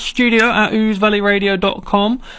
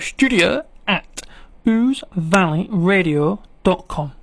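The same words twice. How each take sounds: First: It is said at normal speed. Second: It is said more slowly.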